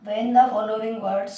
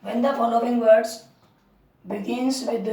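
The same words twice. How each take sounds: First: Very slow, word by word dictation; drawn-out teacher dictation. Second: Slow, deliberate dictation; patient repeated dictation. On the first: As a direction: dictate each word for the notebook. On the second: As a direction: repeat it slowly for writing down. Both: Shown as a demonstration. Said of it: "dictating rule to write".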